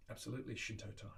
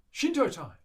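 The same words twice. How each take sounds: First: Said in the usual way. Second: Loud, high announcement falling away; gleeful call-out. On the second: Pretend. [name] calling out Willie's favourite part, gleeful shout. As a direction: shout it like a fanfare.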